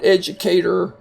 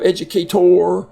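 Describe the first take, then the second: First: The last syllable is unstressed, like 'er'. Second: The last syllable is stressed, like 'or'. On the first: The speaker calls it right. "the O R here is not accented and it kind of has the er sound" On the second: The speaker calls it wrong. "instead of"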